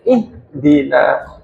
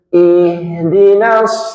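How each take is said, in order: First: The h is cut off abruptly and hard. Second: The h is soft and breathy, flowing on. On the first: The speaker calls it wrong. "potol biasanya" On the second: The speaker calls it right. "Membacanya harus lembut dan lunak"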